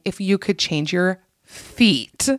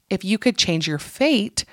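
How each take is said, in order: First: "feet" set off slowly in place of fate; pause, then land on "feet" with a long ee; slow reveal of the misheard word "feet". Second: Said in the usual way. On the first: Retold or imitated. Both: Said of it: "I thought they were saying".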